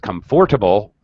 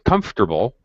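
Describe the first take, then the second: First: The middle syllable is kept, giving four syllables. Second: The middle syllable is dropped, giving three syllables. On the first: The speaker calls it wrong. "you probably get a seven" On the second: The speaker calls it right. "where we drop the middle, middle syllable"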